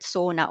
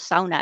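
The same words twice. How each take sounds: First: It is said with an English pronunciation. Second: It is said with a Finnish pronunciation. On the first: This is how the rest of the world says it. "everybody in the world knows the word sauna" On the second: This is how Finns say it. "as we pronounce it in Finnish"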